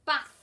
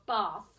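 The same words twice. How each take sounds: First: "bath" with the short a of "cat". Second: "bath" with a long "ah", as in barth. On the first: Teacher names the picture, short-a "bath". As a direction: say "bath" the northern English way, short vowel. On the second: Teacher offers the regional alternative, long-a "bath". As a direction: say "bath" the southern English way, long vowel. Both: Shown as a demonstration. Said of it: "depending where you come from".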